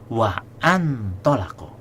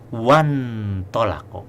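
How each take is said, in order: First: A glottal stop separates wa from the word. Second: The glottal stop drops, linking wa into the word. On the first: The speaker calls it wrong. "Jangan baca wa an tolako" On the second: The speaker calls it right. "ketika disambung jadinya wan tolako, hilang"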